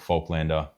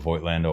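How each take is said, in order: First: The first syllable sounds like 'folk'. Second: The first syllable sounds like 'Voight'. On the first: "With the folk, like a folklore" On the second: "or Voight, like, what's Voight? John Voight"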